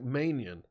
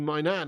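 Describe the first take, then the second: First: The name sounds like 'man-yan', with a y glide. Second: The name sounds like 'my nan', two clear parts. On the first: The speaker calls it wrong. "I always thought his name was pronounced like Manian" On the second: The speaker calls it right. "But I think it is actually my Nan"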